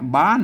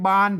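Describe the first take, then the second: First: The word is said on a special low tone. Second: The word is said on a level mid tone. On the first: "บ้านเสียงเตี้ย" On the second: "อันนี้บ้านเสียงสามัญ"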